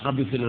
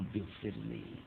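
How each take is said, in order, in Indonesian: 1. Diucapkan dengan cepat dan datar, tanpa penghayatan. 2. Diucapkan dengan pelan dan sungguh-sungguh, dengan penghayatan. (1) "udah nggak bertajwid dan nggak dirasakan" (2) "Mestinya kan ampunilah saya ya Allah"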